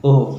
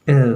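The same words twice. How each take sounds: First: Said in the usual way. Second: ओ said "əu", gliding into an U; British O diphthong. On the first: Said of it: "हम लोग बोल दिया करते हैं". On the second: Shown as a demonstration. Teacher models the letter for students, British O diphthong. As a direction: open ओ as "uh" and close on "oo". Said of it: "आ और ऊ का sound".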